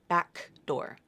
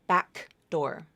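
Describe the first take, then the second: Both takes have the same delivery.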